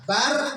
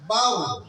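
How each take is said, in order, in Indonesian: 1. Suku kata akhir r tipis dan ringan. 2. Suku kata akhir r penuh dan berat. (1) "barnya kecil" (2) "pakai besar, karena tabkhim dia"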